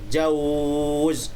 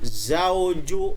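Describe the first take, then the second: First: The word ends on a held consonant. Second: The word ends with a short final vowel. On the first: The reading stops on this word. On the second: The reading continues without a stop.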